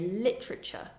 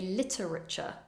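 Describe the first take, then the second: First: The middle syllable is reduced. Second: Every syllable is fully pronounced. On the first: The speaker calls it right. "You'll more often hear literature" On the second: The speaker calls it wrong. "A common mistake would be to say literature"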